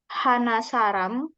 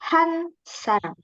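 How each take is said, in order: First: The number is said in full before the noun. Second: The number is shortened before the noun. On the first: The speaker calls it wrong. "bukan bilangnya Hana Saram" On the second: The speaker calls it right. "tapi Han Saram"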